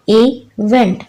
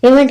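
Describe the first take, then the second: First: इवेंट split into two beats, इ-वेंट; syllable by syllable. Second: Said in the usual way. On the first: Shown as a demonstration. Teacher showing children two syllables, इवेंट said in two parts. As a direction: sound out इवेंट with a gap between its syllables. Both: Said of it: "इसमें टू syllables हैं".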